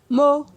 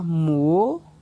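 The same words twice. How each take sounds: First: The syllable is said on a mid tone. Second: The syllable is said on a rising tone. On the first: "Ton moyen" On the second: "Ton montant"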